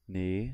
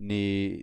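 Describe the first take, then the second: First: The pitch rises from start to end. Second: The pitch dips down, then rises again. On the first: "up, like rising" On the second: "down and rising"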